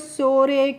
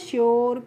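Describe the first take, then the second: First: It is said without a 'y' glide before the vowel. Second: It is said with a 'y' glide before the vowel. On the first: The speaker calls it wrong. "इस तरीके से नहीं पढ़ना है" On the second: The speaker calls it right. "इसका pronunciation योर करके"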